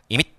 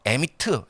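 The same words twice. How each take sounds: First: The word is said smoothly, with native-like flow. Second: The word is said carefully, syllable by syllable. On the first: "이렇게 하지 않고" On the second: "정확히 이제 또박또박"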